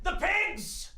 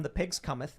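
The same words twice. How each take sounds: First: High, trailer-style cry of the title; dramatic announcement. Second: Said in the usual way. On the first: Pretend. Pitching their movie, a dramatic title cry.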